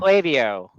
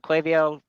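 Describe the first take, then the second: First: The A is said as a long vowel. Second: The A is said as a short vowel. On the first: "with the A, long A" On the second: "short A. Maybe a schwa sound"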